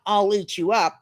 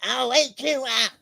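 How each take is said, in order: First: Said in the usual way. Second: Slow, high monstrous threat; drawn-out menacing storybook growl; fierce wild child. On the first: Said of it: "it's not". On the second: Acted. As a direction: roar it slowly like a little monster.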